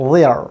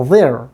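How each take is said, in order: First: THERE in British English, as a gliding diphthong; British pronunciation. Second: THERE the American way, vowel running into R; North American pronunciation. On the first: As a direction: say 'there' the British strong-form way. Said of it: "British pronunciation হচ্ছে গিয়া". ('there' British উচ্চারণে, জোরালো রূপে) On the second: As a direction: say 'there' with an American r-coloured ending. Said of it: "American pronunciation হচ্ছে গিয়ে". ('there' American উচ্চারণে, শেষে র ধ্বনি) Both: Shown as a demonstration.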